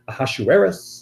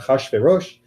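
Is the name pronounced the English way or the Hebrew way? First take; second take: English; Hebrew. First: The name is given its English pronunciation. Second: The name is given its Hebrew pronunciation. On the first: "usually in the English pronunciation" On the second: "in the Hebrew pronunciation"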